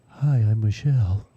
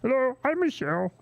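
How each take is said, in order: First: It is said in a plain, natural voice. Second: It is said in a Marvin the Martian voice.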